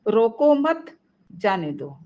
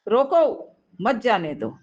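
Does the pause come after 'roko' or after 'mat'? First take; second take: after mat; after roko. First: The pause comes after the word 'mat'. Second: The pause comes after the word 'roko'. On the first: Do not stop him; let him go. "रोको मत, उसे जाने दो" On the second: Stop him; do not let him go. "मतलब उसे रोको, जबरन रोको, उसको कहीं मत जाने दो"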